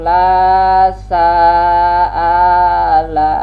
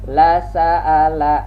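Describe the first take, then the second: First: The phrase is read slowly and drawn out. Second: The phrase is read at normal speed. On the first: The speaker calls it wrong. "Jangan pelan-pelan bacanya ikut pelan. ... Salah" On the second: The speaker calls it right. "Pelan-pelan perhatikan maksudnya"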